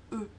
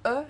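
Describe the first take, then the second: First: "E" as a closed, rounded eu, like "deux"; correct French E. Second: "E" as an open eu, like the vowel in "peur"; wrong French E. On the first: Teacher correcting learners, closed rounded "E". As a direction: round and close the vowel of "E" to an ø sound. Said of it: "c'est vraiment E". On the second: Teacher showing the foreign-sounding mistake, over-open "E". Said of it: "c'est pas E". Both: Shown as a demonstration.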